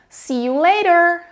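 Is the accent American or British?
American. It has an American accent with a flapped T.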